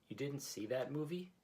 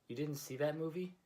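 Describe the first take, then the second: No difference in how they are said.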